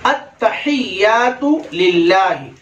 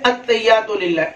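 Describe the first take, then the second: First: "अत्तहियातु लिल्लाहि" slow, with every h sounded; slow teaching demo of "अत्तहियातु लिल्लाहि", long vowels; correct recitation. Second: "अत्तहियातु लिल्लाहि" rushed, h sounds dropped; quick, careless "अत्तहियातु लिल्लाहि" without the ह; common mispronunciation. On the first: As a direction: stretch it as "at-ta-hiy-yaatu lil-laahi". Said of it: "हा हम पूरा गायब कर देते हैं". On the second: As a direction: run it together as "at-tayyatu lilla". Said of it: "आमतौर पर क्या कहते हैं?". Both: Shown as a demonstration.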